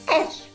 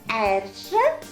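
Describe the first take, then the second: First: The final vowel is dropped and it ends abruptly. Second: The word ends with a full final vowel. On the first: This is how the word is said in speech. "а говорим эрж. Резко" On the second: This is how the word is read. "читается эржа"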